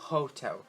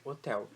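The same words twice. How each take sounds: First: "hotel" with a breathed H at the start; sounded English H. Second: "hotel" with no H sound, starting on the vowel; Portuguese silent H. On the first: Teacher shows English H words, "hotel" with its H aspirated. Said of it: "tem esse som de R". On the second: Teacher gives the Portuguese word first, "hotel" with silent H. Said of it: "eu pronuncio palavras com H no inglês". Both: Shown as a demonstration.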